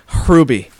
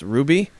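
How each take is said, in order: First: The name starts with a harsh throaty H sound. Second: The name starts directly with an R sound. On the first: "like a really hard H" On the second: "his name is last name is just pronounced Ruby"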